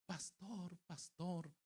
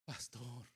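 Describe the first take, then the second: First: Higher, softer imitation of a child; lightly voiced boy calling for help; child calling pastor. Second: Lightly voiced dying woman, subdued; a hint of a sick woman's weak appeal. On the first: Boy interrupting the pastor's preaching, calling out softly. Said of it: "de momento llegó un niño". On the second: Sick mother addressing her pastor, subdued imitation. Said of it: "la mujer estaba y decía".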